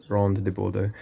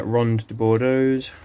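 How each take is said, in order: First: Said in the usual way. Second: Slow, careful try at French Ronde de Bordeaux's; attempted French accent. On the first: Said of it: "no, I can't do it". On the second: Shown as a demonstration. Gardener slowly names his fig in attempted French. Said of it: "I can't roll the R's, sorry, my French accent".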